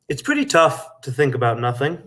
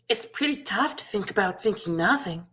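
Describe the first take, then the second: First: It is said in his own normal voice. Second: It is said in a little girl voice.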